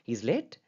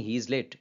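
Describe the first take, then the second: First: "he is late" rising on "late"; question intonation. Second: "he is late" with the tune falling on "late"; simple statement. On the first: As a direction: ask "he is late" with the voice going up at the end. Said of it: "कि वो लेट है". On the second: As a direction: state "he is late" as fact, ending down. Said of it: "it's a simple statement". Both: Shown as a demonstration.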